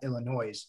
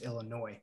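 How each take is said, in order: First: The word ends with an s sound. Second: The word ends without an s sound. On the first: The speaker calls it wrong. "is not Illinois" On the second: The speaker calls it right. "without the S in the end"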